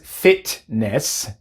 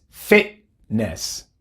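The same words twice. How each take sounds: First: The middle T is released without a glottal stop. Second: The middle T is made as a glottal stop. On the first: The speaker calls it wrong. "No es fitness" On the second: The speaker calls it right. "es fitness"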